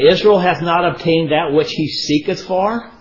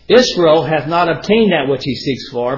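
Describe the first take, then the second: First: It is read like a question, rising. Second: It is read like a statement, falling. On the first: It asks whether this is so. The speaker calls it wrong. "I read that in a form of a question" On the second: It states that this is so. The speaker calls it right. "Let me reread that"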